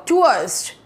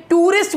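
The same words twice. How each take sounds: First: टूरिस्ट said as "tua-rist"; टूरिस्ट opened with a drawn ua sound; tourist with UA diphthong. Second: टूरिस्ट said as "too-rist", plain oo; टूरिस्ट in two even syllables, too-rist; common tourist pronunciation. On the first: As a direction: glide from oo to uh in टूरिस्ट. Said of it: "उआ". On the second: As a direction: say टूरिस्ट with a pure oo before the R. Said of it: "ये टूरिस्ट बोलते हैं भाई बहुत से लोग". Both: Shown as a demonstration.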